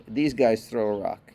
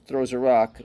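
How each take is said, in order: First: "these" lifted and leaned on against the other dog; stress on THESE. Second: Said in the usual way. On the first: Shown as a demonstration. Owner contrasting his dogs, stressing "these". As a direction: hit "these" to set them apart.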